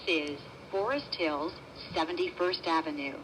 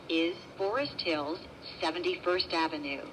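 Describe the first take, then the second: No difference in how they are said.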